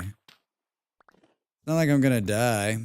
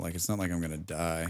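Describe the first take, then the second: First: Slow, drawn-out mock-tragic line; mock dramatic. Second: Said in the usual way. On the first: Shrugging off the panic, in a slow hammed-up tragic drawl. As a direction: stretch it out like a hammed-up melodrama. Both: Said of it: "I don't know why I'm freaking out".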